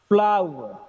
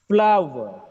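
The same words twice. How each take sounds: Both takes have the same delivery.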